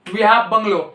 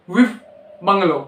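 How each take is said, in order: First: Said in the usual way. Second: "with bungalow", we have cut to "with". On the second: Shown as a demonstration. Teacher showing the spoken form of we have bungalow. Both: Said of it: "इसको पढ़ोगे with".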